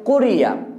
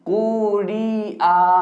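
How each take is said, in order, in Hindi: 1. स्वर छोटे होते हैं और जल्दी पढ़े जाते हैं। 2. स्वर खींचकर और लंबे करके बोले जाते हैं। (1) "जितना जल्दी हो सके उतना जल्दी पढ़ते हैं" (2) "पेश को भी खींच दिए, जेर को भी खींच दिए, या को भी खींच दिए"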